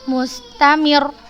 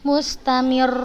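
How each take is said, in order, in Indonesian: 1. Suku kata terakhir diucapkan dengan nada naik. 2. Huruf yang bertasydid dibaca lebih panjang. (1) "nah gitu" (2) "Bukan mustamir, bukan gitu"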